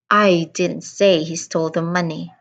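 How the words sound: The word I carries the main stress. "I emphasized on the first word, I"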